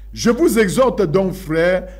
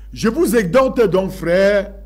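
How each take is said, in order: Both takes have the same delivery.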